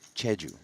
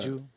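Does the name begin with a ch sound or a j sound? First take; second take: ch; j. First: The name begins with a ch sound. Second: The name begins with a j sound. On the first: "It is C H E" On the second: "Anglicizing things a little bit"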